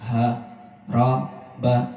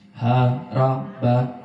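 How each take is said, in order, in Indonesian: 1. Setiap suku kata diucapkan terpisah dengan jeda. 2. Suku katanya terucap menyambung tanpa jeda. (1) "cukup ambil yang putus-putus" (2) "Itu juga nggak boleh"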